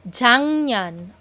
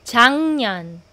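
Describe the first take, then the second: No difference in how they are said.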